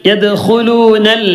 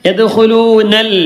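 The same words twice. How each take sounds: Both takes have the same delivery.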